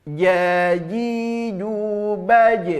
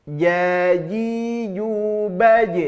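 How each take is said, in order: No difference in how they are said.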